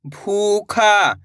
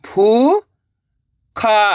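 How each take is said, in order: First: भूखा joined, long vowels; blended word. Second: भू, long pause, खा; भूखा split slowly, rising then falling; syllable by syllable. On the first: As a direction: say भूखा as one drawn-out word. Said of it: "तो मिलके बन जाएगा". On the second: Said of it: "एक अक्षर का उच्चारण करना है". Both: Shown as a demonstration.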